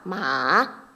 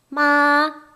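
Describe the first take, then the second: First: The pitch dips low, then rises. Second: The pitch stays high and level. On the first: "삼성" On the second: "일성"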